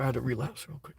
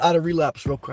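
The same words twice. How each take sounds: First: "I had a relapse real quick" said again much softer and lower; muttered under the breath to himself; quiet repeat. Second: Said in the usual way. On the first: Shown as a demonstration. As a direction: drop it to a near-whispered aside. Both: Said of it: "sorry, I, I".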